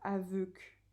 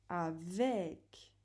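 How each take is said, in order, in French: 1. La deuxième voyelle est un son 'eu' arrondi. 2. La deuxième voyelle est un son 'è' ouvert. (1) "on ne dit pas aveuc" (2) "On dit avec"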